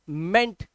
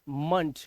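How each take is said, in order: First: The syllable has a full 'e' vowel. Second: The syllable has a reduced, weak vowel. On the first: The speaker calls it wrong. "कई लोग इसको जो pronounce करते हैं तो वो पढ़ते हैं मैनेजमेंट मेंट" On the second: The speaker calls it right. "इसका राइट प्रोनाउंसिएशन जो होता है वो होता है मंट"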